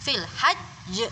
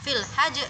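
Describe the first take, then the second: First: The consonant is pressed and doubled. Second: The consonant is short and single. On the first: The speaker calls it right. "ada penekanannya ya" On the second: The speaker calls it wrong. "Jadi bukan fil hajj"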